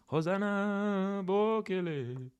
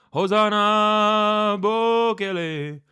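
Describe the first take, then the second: First: Chanted, high, drawn-out call at normal volume; chanted, stretch each name slowly and high, without belting; put-on accented chant. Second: Chanted, loud, high, drawn-out wail in a put-on accent; chanted, belt each name slowly and high in an accent. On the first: Streamer retrying an accent, high restrained drawn-out chant. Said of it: "that accent I'm struggling with". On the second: Chanted, streamer attempting an accent, loud high drawn-out call. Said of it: "I can't do the accent".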